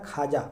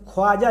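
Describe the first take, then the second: First: खाजा said as "khaaja", with the वाव silent; correct pronunciation. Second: ख्वाजा said as written, "khwaaja" with the w sound; spelling pronunciation. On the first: Teacher giving students the right way to say it, खाजा without the w. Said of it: "इसका सही तलफ़ुज़ है". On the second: Teacher reading the spelling aloud to students, ख्वाजा with w sounded. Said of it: "इसको पढ़ा जाता है खाजा". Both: Shown as a demonstration.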